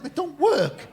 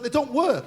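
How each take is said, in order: First: High, loud questioning echo; mock incredulous echo. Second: High, loud imitation of a complaining man; mock exasperated complaint. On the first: Comedian questions the vasectomy patient, mock incredulous. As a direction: throw it back in acted disbelief. Comedian echoes complaint in disbelief. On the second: Vasectomy patient complains to the comedian, mock exasperated. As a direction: insist on it as a retold grievance.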